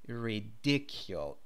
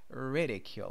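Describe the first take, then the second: First: The stress is on the second syllable. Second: The stress is on the first syllable. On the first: The speaker calls it wrong. "It's not ridicule, even though the adjective is ridiculous" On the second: The speaker calls it right. "It's ridicule"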